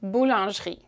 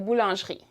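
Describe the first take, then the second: Both takes have the same delivery.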